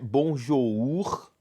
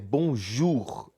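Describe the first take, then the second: First: The last vowel sounds like an 'o'. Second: The last vowel sounds like an 'u'. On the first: The speaker calls it wrong. "não é bonjour" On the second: The speaker calls it right. "é com U"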